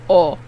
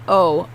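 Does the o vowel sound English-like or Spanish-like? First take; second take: Spanish-like; English-like. First: The vowel is a pure Spanish o. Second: The vowel sounds like an English o. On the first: The speaker calls it right. "the O's are Spanish O's" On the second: The speaker calls it wrong. "not O"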